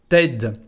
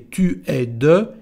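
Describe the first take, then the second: First: The words merge into one contracted form. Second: The words are said separately, uncontracted.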